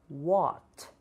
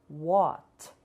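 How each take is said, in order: No difference in how they are said.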